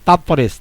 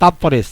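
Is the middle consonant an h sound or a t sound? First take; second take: t; t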